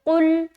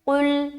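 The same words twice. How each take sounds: No difference in how they are said.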